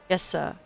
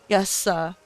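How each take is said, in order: First: It is said very quietly, almost whispered. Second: It is said louder, at a normal volume.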